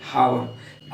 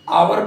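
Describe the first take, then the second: First: The word starts with an h sound. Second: The word starts without an h sound. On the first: The speaker calls it wrong. "न कि हावर" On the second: The speaker calls it right. "इसका उच्चारण हम आवर करते हैं"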